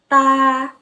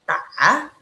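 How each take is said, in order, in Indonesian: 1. Suku kata ini diucapkan dengan nada pertama. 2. Suku kata ini diucapkan dengan nada ketiga. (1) "D A nada satu baca gimana?" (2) "D A nada tiga"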